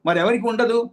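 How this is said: It is said with a question intonation. Is there anyone else who has this power? "అర్థం మారిపోయింది చూడండి. అంటే ప్రశ్న"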